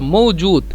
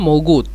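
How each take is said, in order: First: The middle consonant is a j sound. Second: The middle consonant is a hard g sound. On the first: This is the standard form. "বলছিলাম মৌজুদ" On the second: This is the Egyptian dialect form. "মূলত জিমকে মিশরীয় গয়ন হিসেবে ব্যবহার করে, এই জন্য মৌগুদ"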